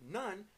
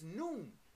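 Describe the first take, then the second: First: The vowel is short, like in 'fun'. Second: The vowel is long, like in 'moon'. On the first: The speaker calls it wrong. "We pronounced it nun" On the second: The speaker calls it right. "but it's noon"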